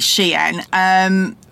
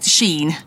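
First: The name is said as two syllables, 'she-in'. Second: The name is said as one syllable, 'sheen'. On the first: The speaker calls it right. "but it's actually Shein" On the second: The speaker calls it wrong. "I know some people pronounce it Sheen"

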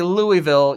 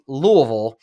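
First: The name is said with full, clear syllables. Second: The name is said mumbled, with reduced syllables. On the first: The speaker is not from the city. The speaker calls it wrong. "you don't say Louisville" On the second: The speaker is from the city. The speaker calls it right. "you say Louisville. Only the people who've lived there get it"

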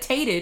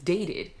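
First: The syllable starts with a T sound. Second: The syllable starts with a D sound. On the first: The speaker calls it wrong. "You said tated" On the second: The speaker calls it right. "and it's dated. D versus T"

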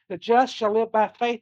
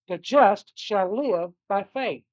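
First: The stress is on the word just. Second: The stress is on the word live.

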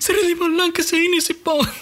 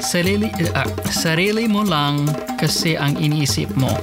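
First: It is said fast and heatedly. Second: It is said slowly and calmly. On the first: "They would say it really fast while they're arguing" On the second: "they wouldn't say it that calm"

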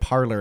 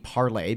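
First: The name ends with an 'er' sound. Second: The name ends with an 'ay' sound. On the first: This is the name as people commonly came to say it. "people just started pronouncing it parlor" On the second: This is the originally intended French-style name. "it was launched to be parlay because it's spelled P-A-R-L-E-R"

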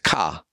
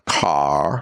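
First: The final R is dropped, New England style. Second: The final R is pronounced.

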